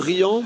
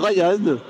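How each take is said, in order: First: The name is said like the French word riant. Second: The name is said like the English name Ryan. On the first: The speaker calls it wrong. "vous dites euh, Riant" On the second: The speaker calls it right. "moi j'irais plutôt sur Ryan"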